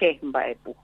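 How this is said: The 'ch' at the start is fully pronounced. This is how speakers from the other region say it. "ellos dicen ... Pronuncia la che"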